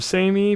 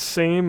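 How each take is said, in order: First: It ends with an added 'ee' vowel sound. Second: It is one syllable with no final vowel. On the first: The speaker calls it right. "it's got the uh, e sound at the end" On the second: The speaker calls it wrong. "it's not pronounced same"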